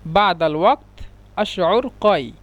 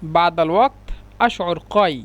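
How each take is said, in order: First: Badal ওয়াক্ত আশউর কয় said slowly word by word; slow it down so learners catch each word; careful, slowed Arabic; slow repeat. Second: Said in the usual way. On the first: Shown as a demonstration. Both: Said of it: "এটা আরবি শুদ্ধ ভাষা হলো".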